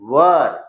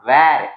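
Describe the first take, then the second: First: The vowel sounds like 'er'. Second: The vowel sounds like 'air'. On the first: The speaker calls it right. "It is वर" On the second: The speaker calls it wrong. "It is not वेर"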